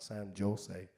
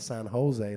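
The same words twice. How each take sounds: First: Jose starts with a J sound. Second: Jose starts with an H sound. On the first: The speaker calls it wrong. "not San Jose" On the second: The speaker calls it right. "we don't pronounce the J, we put a H there instead, so it's called San Jose"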